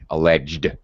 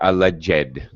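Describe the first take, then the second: First: The ending is a plain d sound. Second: The ending adds an extra syllable. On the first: The speaker calls it right. "it sounds like a D" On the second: The speaker calls it wrong. "it's not alleged"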